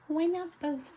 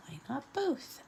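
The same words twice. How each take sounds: First: Lightly mimicked little girl, higher; a playful nod to the famous clip; quoting a viral kid. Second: Softer, rising mimic of the little girl; quoting the viral kid again. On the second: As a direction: toss the quote off quietly. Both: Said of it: "You know that little girl who was, like, viral".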